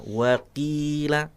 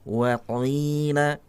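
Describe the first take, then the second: First: The qaf is made only moderately thick. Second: The qaf is made exaggeratedly thick and heavy. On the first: The speaker calls it right. "yang lebih sempurna" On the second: The speaker calls it wrong. "Tidak perlu ditebalkan sampai tebal sekali"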